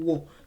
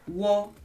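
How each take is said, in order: First: The word is said on a lower pitch. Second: The word is said on a higher pitch. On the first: The verb stands on its own. "from do, from wo" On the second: A noun is coming next. "to wo re"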